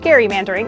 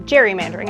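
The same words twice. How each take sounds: First: The word is said in its older, original way. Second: The word is said in its current, modern way. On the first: This is how the term was first said. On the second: This is how the term is said today.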